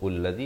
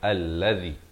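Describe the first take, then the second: First: The word begins with a 'u' vowel. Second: The word begins with an 'a' vowel. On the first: The speaker calls it wrong. "atau ullazi" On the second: The speaker calls it right. "Bacanya allazi"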